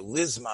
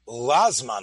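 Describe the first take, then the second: First: The first vowel is a short reduced schwa. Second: The first vowel is an open a sound. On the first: "with a shvo" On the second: "Some say with a patach"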